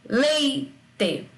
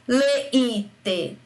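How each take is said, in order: First: The i is a weak glide after the e. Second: The i is a full, separate, strong vowel. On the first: The speaker calls it right. "ele passa a ser leite. O I, nesse caso, perde a força de vogal" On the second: The speaker calls it wrong. "eu não falo leite. O I teria que ter essa força para ser vogal"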